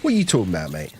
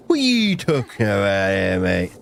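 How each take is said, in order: First: Said in the usual way. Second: Gummy, mushy mouth, no teeth; toothless voice. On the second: Acted. Streamer asks chat a question, toothless gummy voice. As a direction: talk like you've lost all your teeth. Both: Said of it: "why am I talking like I've got no teeth".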